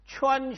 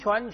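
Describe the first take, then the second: First: The syllable stays high and level. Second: The syllable rises in pitch. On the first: "阴平" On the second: "阳平"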